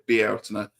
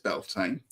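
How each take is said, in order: First: It is said the more Celtic, Gaelic-sounding way. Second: It is said the common anglicized English way. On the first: This is the more traditional Celtic form. "It's now being claimed to be more Celtic as Bealtaine" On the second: This is how most people say it. "everyone says Beltane. That's fine"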